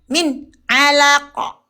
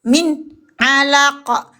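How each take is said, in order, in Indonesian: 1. Bunyi n tertutup dan terputus pendek. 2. Bunyi n tertutup dan terputus pendek.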